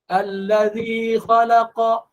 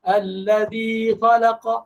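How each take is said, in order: Both takes have the same delivery.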